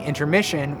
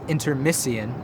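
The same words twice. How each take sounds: First: The middle consonant is a 'sh' sound. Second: The middle consonant is an 's' sound. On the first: This is the modern pronunciation. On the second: This is how it was said in Shakespeare's time.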